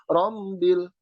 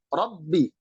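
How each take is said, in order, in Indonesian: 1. Bunyi b bercampur dengan bunyi m yang sengau. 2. Bunyi b tegas, tidak ada bunyi sengau. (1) "ada unsur hidung dalam pengucapan huruf ba" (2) "Dia tekanannya kuat dan tidak ada unsur hidung"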